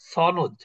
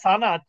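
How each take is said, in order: First: It is said with the everyday Bengali pronunciation. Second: It is said with the original Arabic pronunciation. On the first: This is how people usually say it. "কিন্তু আসলে আমরা বলি কি সনদ" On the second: This is the word's original pronunciation. "উচ্চারণটা সানাদ"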